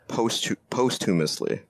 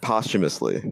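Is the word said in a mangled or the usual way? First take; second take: mangled; usual. First: The word is said in a mangled way. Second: The word is said the usual way. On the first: "Someone pronounced it posthumously" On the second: "So the word posthumously, right?"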